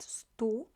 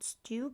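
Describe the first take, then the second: First: It is said with the Polish syllable stu. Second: It sounds like the English word stew. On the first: The speaker calls it right. "but stu" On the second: The speaker calls it wrong. "It's not stew"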